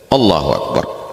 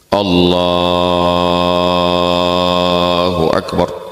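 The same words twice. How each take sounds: First: The takbir is said short and quick. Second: The takbir is drawn out long.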